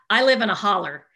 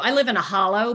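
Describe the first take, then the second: First: It is said in an East Tennessee accent. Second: It is said in a standard accent.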